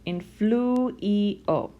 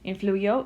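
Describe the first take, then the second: First: The i is said as a separate vowel. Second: The i becomes a quick y glide. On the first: The speaker calls it wrong. "which is pronounced influio" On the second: The speaker calls it right. "the faster you say it, it almost sounds like you're saying influyo"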